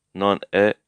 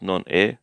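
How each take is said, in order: First: È in non è as an open "eh". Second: È in non è as a closed "ay", rising. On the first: Teacher giving the right form, è open like "eh". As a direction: say non è with a wide "eh". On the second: Teacher showing the mistake, è closed like "ay". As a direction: say non è ending on a tight "ay". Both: Shown as a demonstration. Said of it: "it's not non è".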